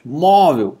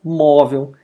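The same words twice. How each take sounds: First: MÓvel, first syllable stretched and loud; stress on penultimate. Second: Said in the usual way. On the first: Shown as a demonstration. Teacher proving the rule, Móvel with heavy first syllable. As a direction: hit the "Mó" of Móvel hard. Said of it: "penúltima sílaba é mais forte". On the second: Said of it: "é pronunciada com mais força".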